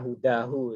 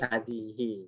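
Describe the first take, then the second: First: The word is read with u vowels: hudahu. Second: The word is read with a and i vowels: hadihi. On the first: The speaker calls it wrong. "ini saya pernah dengar dibaca hudahu kan. Nah, lucu kan?" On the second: The speaker calls it right. "Pasti hadihi"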